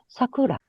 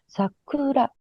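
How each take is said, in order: First: The first syllable is high in pitch. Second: The first syllable is low in pitch. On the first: The speaker calls it wrong. "韓国の人に多いのは、最初の音を高くしちゃう。" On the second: The speaker calls it right. "日本のイントネーションは、最初の言葉は低い。"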